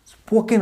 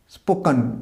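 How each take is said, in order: First: "স্পোকেন" ending in a full ken; wrong pronunciation. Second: "স্পোকেন" ending in a reduced kun; correct pronunciation. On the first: Teacher showing what not to say, full-vowel ending. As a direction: say "স্পোকেন" as spo-ken, full e in the last syllable. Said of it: "উচ্চারণ হবে না". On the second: Teacher giving the right pronunciation, reduced ending. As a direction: say "স্পোকেন" as spo-kuhn. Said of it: "উচ্চারণ হবে". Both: Shown as a demonstration.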